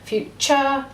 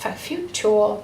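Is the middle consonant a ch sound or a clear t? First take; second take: ch; clear t. First: The middle consonant is a ch sound. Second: The middle consonant is a carefully pronounced t. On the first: This is everyday speech. "we say kind of a ch" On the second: This is a careful voice used to recall the spelling. "we are much more posh"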